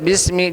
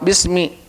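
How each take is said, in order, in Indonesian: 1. Vokal akhirnya condong ke bunyi e. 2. Vokal akhirnya adalah i yang jelas dan murni. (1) "Jadi ada kayak ada imalah" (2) "Betul-betul kasroh kasroh"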